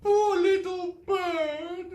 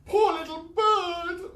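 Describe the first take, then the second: First: Very high, slow rising wail. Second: Very high, slow wail. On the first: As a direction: mourn the bird again. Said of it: "wailed Miss Gum for a second time". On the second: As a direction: mourn the bird aloud. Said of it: "wailed Miss Gum". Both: Acted.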